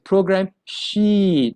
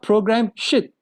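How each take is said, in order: First: The vowel in the second word is long. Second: The vowel in the second word is short. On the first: The speaker calls it right. "a longer E sound" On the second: The speaker calls it wrong. "It's very dirty"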